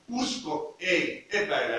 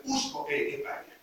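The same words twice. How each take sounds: First: Said in the usual way. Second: Hushed, breathy whisper of conviction; quiet whispered emphasis. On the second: Real, not acted. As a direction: whisper it like a secret truth. Repeats key phrase, then plainly.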